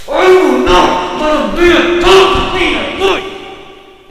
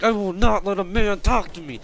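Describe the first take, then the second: First: All-out high, slow mock scream; enraged screaming. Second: Toned-down mock yell, raised pitch; retold yelling. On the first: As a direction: scream every word as the furious customer. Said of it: "she's, like, so fucking angry". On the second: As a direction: imitate her yelling without really screaming. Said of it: "yelling at me".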